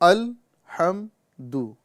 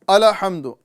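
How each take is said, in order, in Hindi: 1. ‘l’ की आवाज़ बिना छूट के स्थिर रोकी जाती है। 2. ‘l’ की आवाज़ गूँजती हुई छूट के साथ उछलती है। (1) "हमें लाम में कलकला नहीं करना है" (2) "लोग पढ़ते हैं ... लाम में कलकला पाया जा रहा है"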